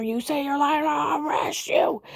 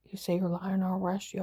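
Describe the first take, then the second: First: High, drawn-out mimicked shout; shouted threat. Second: Said in the usual way. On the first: Officer threatening a woman with arrest, shouted threat. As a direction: bellow the threat, pitched up and stretched.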